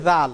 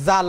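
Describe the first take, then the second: First: জাল said with a z-like sound as the letter zal; the proper জাল, zal; corrected জাল with a z; correct pronunciation. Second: জাল said with a plain j sound as people often do; the common mistaken জাল; mispronounced জাল; wrong pronunciation. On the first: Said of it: "এটার নাম হচ্ছে জাল". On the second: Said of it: "এটা আসলে কিন্তু জাল না". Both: Shown as a demonstration.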